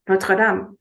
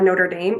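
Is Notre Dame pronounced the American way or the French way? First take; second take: French; American. First: It is pronounced with a French-style pronunciation. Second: It is pronounced with an American English pronunciation. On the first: This is a habit picked up from living abroad. "I was like" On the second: This is how people in the US say it. "we call Notre, uh, Notre Dame in the U S"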